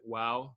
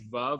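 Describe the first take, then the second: First: The word begins with a w sound. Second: The word begins with a v sound.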